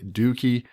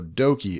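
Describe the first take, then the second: First: The first vowel sounds like 'oo'. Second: The first vowel sounds like 'oh'. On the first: The speaker calls it wrong. "he's saying dookie, and to me, I just it does not sound right" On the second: The speaker calls it right. "okie dokie is spelt the same way. So dokie"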